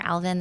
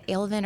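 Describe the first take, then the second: First: Alvin with a short A, as in "Al"; second pronunciation of Alvin. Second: Alvin with a long A, as in "ale"; first pronunciation of Alvin. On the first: Teacher comparing two ways to say it, short-A Alvin. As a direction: say Alvin as AL-vin. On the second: Teacher comparing two ways to say it, long-A Alvin. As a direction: say Alvin as AYL-vin. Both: Shown as a demonstration. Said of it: "pronouncing it two different ways".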